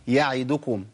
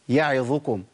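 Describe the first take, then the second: The two takes are said the same way.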